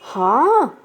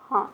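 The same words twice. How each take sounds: First: It is said with a questioning pitch wave. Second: It is said with plain statement intonation. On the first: It asks for confirmation. "प्रश्न में ... हाँ ऐसा है ना थोड़ा सा लहर है" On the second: It simply agrees or affirms. "सामान्य कथन में ... हाँ हाँ ठीक ऐसा बोल देते हैं"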